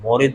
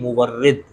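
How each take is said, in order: First: The word is said as two syllables. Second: The word is said as three syllables. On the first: The speaker calls it wrong. "मोरिद नहीं" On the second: The speaker calls it right.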